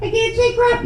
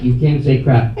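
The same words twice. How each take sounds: First: Put-on very high little-girl voice; six-year-old daughter. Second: Said in the usual way. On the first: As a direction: echo it in a tiny child's squeak. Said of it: "six years old". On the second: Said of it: "I said".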